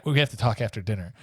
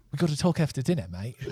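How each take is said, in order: First: Said in the usual way. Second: Higher, hammed-up Australian accent; comically off-target Australian accent; botched Australian accent. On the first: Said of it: "I'm gonna just speak in English". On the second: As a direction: attempt a Scot and slip into bad Australian. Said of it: "I'm Australian".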